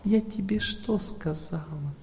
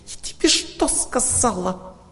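First: It is said gently, with much less emotion. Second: It is said forcefully, with strong emotion. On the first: The listener can comfortably take it in. The speaker calls it right. "эмоции надо сделать в 5 раз меньше. Вот так" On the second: The listener feels pressured and hurt. The speaker calls it wrong. "женский напор означает эмоции"

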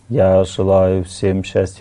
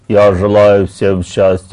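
First: The voice sounds soft and gentle. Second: The voice sounds hard and tense. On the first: It comes from the heart. The speaker calls it right. "Мягко" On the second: It comes from the head. The speaker calls it wrong. "Это звук головы"

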